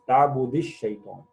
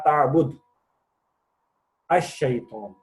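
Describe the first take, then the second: First: Ta'bud runs straight into shaytan without a break. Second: It pauses after ta'bud, then starts with ash. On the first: The speaker calls it right. "जब कंटिन्यूटी में पढ़ते हैं" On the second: The speaker calls it wrong. "अगर हम ताबुद पे पॉज लेंगे तो हम इसकी हरकत हजफ कर देते हैं"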